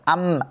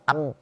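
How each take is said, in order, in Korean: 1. 비음이 자유롭게 흘러나와서 계속 울려요. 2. 비음이 갑자기 끊기고 답답하게 막혀요.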